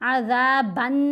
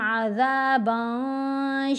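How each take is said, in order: First: The n is pronounced fully and clearly. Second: The n is hidden into a nasal sound. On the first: The speaker calls it wrong. "अज़ाबन नहीं करना" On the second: The speaker calls it right. "एहफ़ा करना है"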